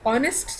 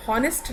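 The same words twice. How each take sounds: First: "ऑनेस्ट" begun straight on the vowel, no H sound; silent H. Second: "हॉनेस्ट" with an audible H at the start; H pronounced. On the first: Teacher showing the class how the word is said, silent H in "ऑनेस्ट". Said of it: "हम एच को pronounce नहीं करते हैं". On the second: Teacher showing the class the mistake, H sounded in "हॉनेस्ट". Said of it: "हॉनेस्ट नहीं बोल रही हूँ". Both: Shown as a demonstration.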